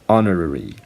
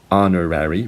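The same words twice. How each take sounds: First: It is said in a British accent. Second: It is said in an American accent. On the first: "British people say" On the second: "Americans say"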